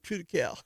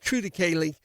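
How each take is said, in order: First: The word ends with a 'cow' sound. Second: The word ends with a 'lee' sound. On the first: Ordinary people say it this way. "the dumb guys like me say true to cow" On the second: Educated people say it this way. "I hear the smart guys say it's true to Kaylee"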